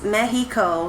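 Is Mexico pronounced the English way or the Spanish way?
Spanish. The word is pronounced the Spanish way. "she says Mexico"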